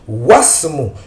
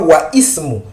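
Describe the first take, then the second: First: The i is dropped, linking into wasmu. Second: The i is pronounced as a separate syllable. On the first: The speaker calls it right. "nous ne prononçons pas le Hamzatul Wasl" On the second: The speaker calls it wrong. "Nous ne disons pas wa ismu"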